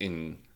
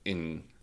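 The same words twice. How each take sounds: First: The vowel sounds like the vowel in dress. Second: The vowel sounds like the vowel in dress.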